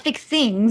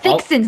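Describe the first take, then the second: First: The ending is said with a final g sound. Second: The ending is said without a final g sound. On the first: The speaker calls it wrong. "not fixings" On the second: The speaker calls it right.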